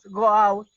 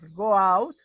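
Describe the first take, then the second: First: It is shouted angrily and loudly. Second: It is said calmly, at normal volume.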